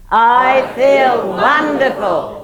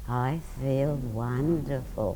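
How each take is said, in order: First: It is said very loudly. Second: It is said quietly.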